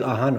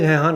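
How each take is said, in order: First: The word begins with a vowel, no h. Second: The word begins with an h sound. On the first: Another speaker's way of saying then. "and he's talking about um, uh, ahan or then" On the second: The speaker's own way of saying then. "I would say it hehan"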